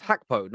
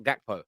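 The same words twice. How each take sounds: First: "Hakpo" starting with an h sound; H pronunciation. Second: "Gakpo" starting with a hard g; hard G pronunciation. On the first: Co-host checking the footballer's name, "Hakpo" with initial H. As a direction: say "Hakpo" with a breathy H opening, not a G. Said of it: "Is it pronounced Hakpo". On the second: Co-host offering the other version, "Gakpo" with hard G. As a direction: say "Gakpo" with a G opening, not an H. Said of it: "not Gakpo". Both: Shown as a demonstration.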